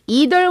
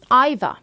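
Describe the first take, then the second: First: It is said in an American accent. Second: It is said in a British accent.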